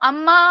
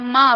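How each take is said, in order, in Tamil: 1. சத்தமா கூப்பிடும்போது முடிவு நீண்டு ஒலிக்கும். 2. சாதாரணமா சொல்லும்போது முடிவு குறுகி ஒலிக்கும். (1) "சத்தமா கூப்பிடப்ப மா அப்படிங்கிறது நீண்டு ஒலிக்குல்ல" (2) "கிட்டக்க இருந்தாங்கன்னா"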